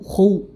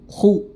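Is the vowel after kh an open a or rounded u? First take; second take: rounded u; rounded u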